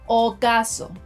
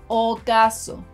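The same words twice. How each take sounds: No difference in how they are said.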